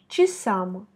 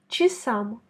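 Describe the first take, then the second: First: The first vowel sounds like a reduced 'i'. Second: The same.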